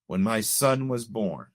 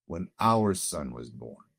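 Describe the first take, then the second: First: Said in the usual way. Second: Our said slower and lower, stressed; a careful, deliberate our in when our son was born. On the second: Shown as a demonstration. Father corrects himself to stress our son. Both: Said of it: "I choose my words very carefully".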